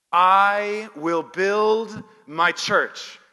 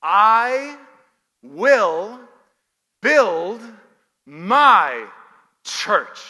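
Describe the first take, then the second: First: Loud, slow and drawn out; stretched, ringing proclamation of a promise; emphatic declaration. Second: "I... will... build... my... church", each word punched loud and alone; very loud word-by-word emphasis on "I will build my church"; stress on every word. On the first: Real, not acted. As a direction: proclaim it slowly at full voice, as one phrase. Preacher declares the key verse. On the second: Shown as a demonstration. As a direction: hit I, will, build, my, church separately, with pauses between. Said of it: "emphasize each one of them".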